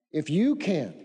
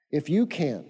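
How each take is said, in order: First: "If you can" repeated, "you" hit and falling; stress on you. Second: "If you can" with "you" pushed forward in disbelief; stress on you. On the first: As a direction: quote back "If you can" with weight on "you". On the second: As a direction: lean on "you" in "If you can", lower, as if echoing doubt. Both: Shown as a demonstration. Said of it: "this is what I wanted you to see".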